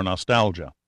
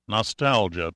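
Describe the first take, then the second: First: Said in the usual way. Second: "Nostalgia" lingered over, each syllable savored; musing "Nostalgia", every syllable given its due; savored word. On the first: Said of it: "Nostalgia, Pitt said out loud". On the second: A narrator's reading. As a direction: roll "Nostalgia" slowly on the tongue. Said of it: "rolling the word on his tongue".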